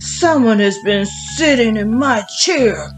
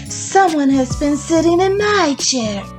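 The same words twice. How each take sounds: First: It is said in a big, deep voice. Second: It is said in a medium-sized voice. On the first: "in his great big voice" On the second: "in her little middle-sized voice"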